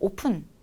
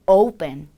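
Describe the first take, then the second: First: The first vowel is a short plain o. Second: The first vowel glides from o to u. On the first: The speaker calls it wrong. "그냥 오픈, 오픈 이렇게 많이 발음하시죠?" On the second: The speaker calls it right. "충분히 오, 우가 다 들리도록 발음을 해주세요"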